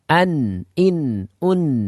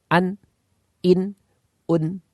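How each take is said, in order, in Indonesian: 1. Bunyi n tetap mengalir dengan sengau. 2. Bunyi n terpotong secara tiba-tiba. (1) "yang benar adalah ... Jadi ada suara yang masih berjalan" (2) "tertahan. ... Jadi tidak ada suara yang mengalir"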